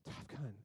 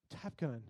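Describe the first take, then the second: First: Low, much softer sleepy murmur; drowsy mumble. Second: Low soft sleepy murmur; groggy, half-awake mumble; drowsy mumble. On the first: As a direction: mumble it barely awake. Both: Retold or imitated. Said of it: "wake up and go".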